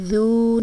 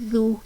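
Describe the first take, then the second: First: The vowel is stretched and drawn out long. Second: The vowel is short and not drawn out. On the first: The speaker calls it wrong. "इसको खींच कर नहीं पढ़ेंगे, ज़ू नहीं पढ़ेंगे।" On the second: The speaker calls it right. "ज़ाल को नरमी से अदा करना है।"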